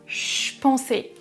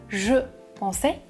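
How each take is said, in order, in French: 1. Le mot « je » est réduit à un son ch. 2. Le mot « je » est prononcé en entier. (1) "Il prononce je pensais avec le son ch" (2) "Il ne prononce pas je pensais"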